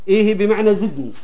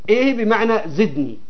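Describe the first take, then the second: Both takes have the same delivery.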